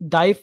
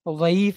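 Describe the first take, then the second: First: The word begins with a d sound. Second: The word begins with a z sound. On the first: The speaker calls it wrong. "अब ये लफ्ज दाइफ नहीं" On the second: The speaker calls it right. "जिसका south Asian continent में जा के मखरज से तलफ़ुज़ किया जाता है"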